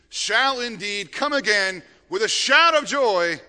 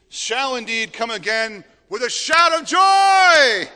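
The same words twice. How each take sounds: First: It is read in a plain, ordinary tone. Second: It is read in a joyful, excited tone.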